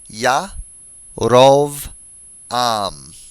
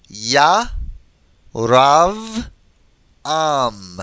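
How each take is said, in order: First: The second syllable has an 'oh' vowel. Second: The second syllable has an 'ah' vowel. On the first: The speaker calls it right. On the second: The speaker calls it wrong.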